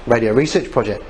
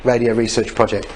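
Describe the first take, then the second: No difference in how they are said.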